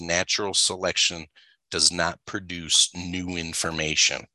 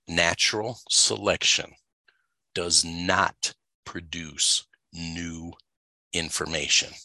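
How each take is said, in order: First: It is said at normal speed. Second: It is said slowly.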